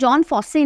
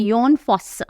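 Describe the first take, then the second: First: The first name begins with a j sound. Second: The first name begins with a y sound. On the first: The speaker calls it wrong. "इसको जॉन फॉस्से नहीं पढ़ते हैं" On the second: The speaker calls it right. "यह है योन फॉस्स"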